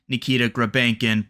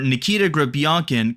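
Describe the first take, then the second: First: The surname's middle has a plain 'e' sound. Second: The surname's middle has a 'yo' sound. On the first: This is how the name will be said in North America. "we'll probably be saying Nikita Grabankin before long" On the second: This is how the name is said in Russia. "it's pronounced like that in Russia"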